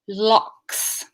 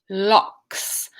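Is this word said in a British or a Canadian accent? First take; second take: British; British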